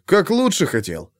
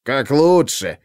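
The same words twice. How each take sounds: First: Said in the usual way. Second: Mimics his words back with scorn; mocking echo. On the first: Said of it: "развёл руками Лепягин". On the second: A narrator's reading. The chief mocks his officer's excuse, scornful echo. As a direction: throw his own words back at him, sneering. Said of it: "передразнил его Ковалёв".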